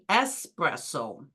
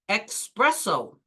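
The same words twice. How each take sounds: First: It begins with an 'es' sound, no k. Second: It begins with an 'ex' sound, like express. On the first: The speaker calls it right. "They should say espresso" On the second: The speaker calls it wrong. "People say espresso. ... probably because it sounds like express"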